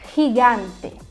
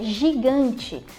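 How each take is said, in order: First: It starts with a throaty, breathy 'h' sound. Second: It starts with a soft 'zh' sound. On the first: This is the Spanish pronunciation. "Em espanhol" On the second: This is the Portuguese pronunciation. "uma palavra que a gente tem em português"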